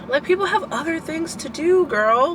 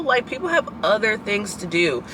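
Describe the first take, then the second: First: High, pitched-up exasperated plea. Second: Said in the usual way. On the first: Real, not acted. Venting to viewers about classmates, exasperated and high. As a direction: throw it up high in disbelief.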